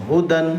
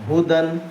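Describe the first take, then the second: No difference in how they are said.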